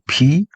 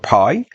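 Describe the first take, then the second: First: The word is said with the vowel of 'see'. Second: The word is said with the vowel of 'sky'. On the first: "I myself prefer uh, to pronounce it P" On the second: "Pi is correct"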